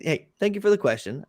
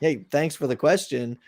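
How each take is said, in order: First: It sounds sincere and gracious. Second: It sounds resentful, like someone feeling ignored.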